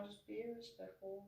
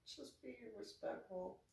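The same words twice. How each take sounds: First: Soft and higher, gently reminding; soft reminder. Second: Soft, higher, rising at the end; soft repeat. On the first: Vlogger softly reminding viewers to be respectful. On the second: Vlogger repeating her gentle reminder to viewers. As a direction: repeat the reminder softly with a lift. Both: Shown as a demonstration.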